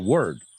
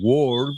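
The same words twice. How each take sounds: First: The vowel sounds like 'er', an E-like sound. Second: The vowel sounds like 'or', following the spelling. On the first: The speaker calls it right. "They say word, word. Es una E" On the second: The speaker calls it wrong. "la gente no suele decir word"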